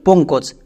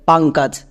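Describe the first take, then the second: First: The vowels are pronounced with an 'o' sound. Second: The vowels are pronounced with an 'a' sound. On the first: "আমরা যদি এই নামটাকে বাংলায় বলি" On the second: "ইংরেজিতে উচ্চারণ করি তাহলে সেটা হয়ে যাবে"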